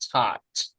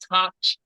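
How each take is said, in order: First: The word ends with a clear t sound. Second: The word ends with a ch sound. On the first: The speaker calls it right. "The ending sound is the t" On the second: The speaker calls it wrong. "you did add uh, ending sound, but it's like touch"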